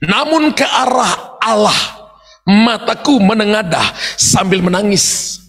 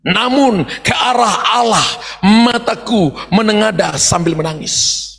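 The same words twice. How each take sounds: First: Slow, crying-edged verse read out; slow weeping lament; tearful reading. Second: Slow and broken, crying in the voice; slow weeping prayer; tearful reading. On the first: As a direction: let the voice break as you lift eyes to God. Verse of weeping prayer, repeated. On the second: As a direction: read it as a tearful cry to God. Verse repeated, weeping. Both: Shown as a demonstration.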